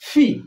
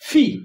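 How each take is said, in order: First: The p sound has a strong puff of air. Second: The same.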